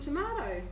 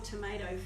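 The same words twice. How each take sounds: First: It is said with a non-American pronunciation. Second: It is said with an American pronunciation.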